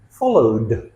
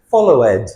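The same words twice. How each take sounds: First: "followed" ending in a simple voiced d. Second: "follow ed" with a separate ED; wrong extra syllable. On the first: Teacher models the D ending, "followed" with a plain final d. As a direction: say "followed" in two syllables, d at the end. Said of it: "Notice the D sound at the end". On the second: Teacher shows the mistake, "follow ed" with an added syllable. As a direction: break "follow ed" into follow-ED. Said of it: "We never say". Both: Shown as a demonstration.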